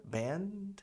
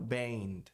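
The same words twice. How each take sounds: First: Band com N firme antes do D; pronúncia correta. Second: Band com vogal nasal no lugar do N; pronúncia errada. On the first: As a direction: toque a língua no palato no N de band. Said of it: "Band e não band". (band com N bem pronunciado) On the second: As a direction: diga band com o N frouxo. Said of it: "e não band". (band com N engolido) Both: Shown as a demonstration.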